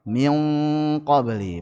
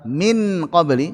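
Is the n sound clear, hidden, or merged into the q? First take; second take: hidden; clear. First: The n is hidden in a light nasal sound. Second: The n is pronounced clearly and fully. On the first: The speaker calls it right. "paling ringan" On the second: The speaker calls it wrong. "kalau dibaca dengan izhar min qabli berat"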